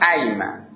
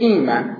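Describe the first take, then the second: First: The word begins with an 'a' vowel. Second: The word begins with an 'i' vowel. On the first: This is the form built on the original word. "نسبت به اصلش میشه چی؟" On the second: This is the form built on the variant with a kasra. "نسبت به همین قبلش که میگه مکسور شده"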